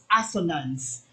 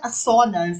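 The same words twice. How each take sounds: First: The stress is on the first syllable. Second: The stress is on the second syllable. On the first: The speaker calls it right. "First syllable yung accent" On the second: The speaker calls it wrong. "it's not assonance"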